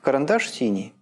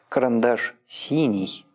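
First: The word 'синий' has only ordinary stress. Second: The word 'синий' carries strong extra emphasis. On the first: "Здесь нет логического ударения" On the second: "а вот оно появляется"

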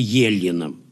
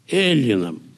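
First: The word begins with a soft 'ye' sound. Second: The word begins with a hard 'e' sound. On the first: The speaker calls it wrong. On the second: The speaker calls it right.

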